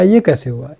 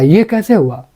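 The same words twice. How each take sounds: First: It is said in a plain, normal tone. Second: It is said in an excited, surprised tone.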